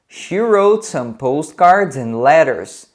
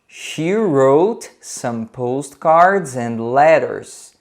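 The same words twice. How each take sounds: First: It is spoken at a faster pace. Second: It is spoken at a slower, careful pace.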